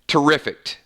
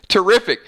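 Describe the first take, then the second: First: The word is said with an extra T sound. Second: The word is said without an extra T sound. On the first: The speaker calls it wrong. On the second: The speaker calls it right.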